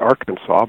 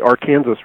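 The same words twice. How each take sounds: First: It is pronounced the way most other people do. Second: It is pronounced the local Kansas way. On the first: This is how people elsewhere say the name. "Other people would pronounce it Arkansas" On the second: This is how people in Kansas say the river's name. "which they call the Arkansas River"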